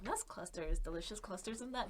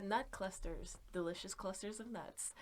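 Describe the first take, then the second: First: Soft imitated sleep whisper; imitating a friend whispering at night; mock whisper. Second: Creepy soft sell of nut clusters. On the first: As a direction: murmur it like a voice in your dreams. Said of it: "He just whispers it in my sleep". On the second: Acted. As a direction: breathe the words like a secret ad. Slogan for the stream killer.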